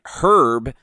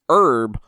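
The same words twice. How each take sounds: First: The word begins with a clear H sound. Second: The word begins without any H sound. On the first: It is a man's name. "Herb is a forty-five-year-old shoe salesman" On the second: It is a plant used to flavour food. "You shouldn't"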